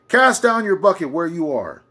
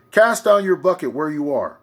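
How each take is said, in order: Both takes have the same delivery.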